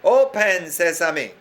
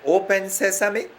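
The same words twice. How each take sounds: First: It is said loudly. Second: It is said at normal, softer volume.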